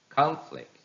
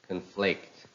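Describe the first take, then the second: First: It is stressed with the noun's stress pattern. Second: It is stressed with the verb's stress pattern. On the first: "How will they sound if they are noun?" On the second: "some of the verbs that are following this rule"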